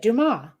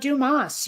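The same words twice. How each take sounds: First: The final S is silent. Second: The final S is sounded. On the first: The speaker calls it right. "you just said it. Dumas. Right" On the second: The speaker calls it wrong. "It's not Dumas. You don't pronounce the S"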